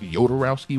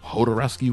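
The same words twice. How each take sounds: First: The name begins with a Y sound. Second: The name begins with an H sound. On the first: "with a Y" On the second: "with an H"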